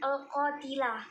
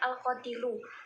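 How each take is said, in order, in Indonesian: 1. Kata ini berakhir dengan bunyi 'ah'. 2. Kata ini berakhir dengan bunyi 'u'. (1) "Bapak itu membacanya al-qatilah" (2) "yang benar itu adalah al-qatilu"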